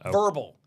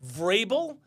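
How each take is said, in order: First: The R comes after the first vowel. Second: The R comes right after the V. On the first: The speaker calls it wrong. "it's god awful how they butchered the names" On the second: The speaker calls it right. "If you can't pronounce Vrabel"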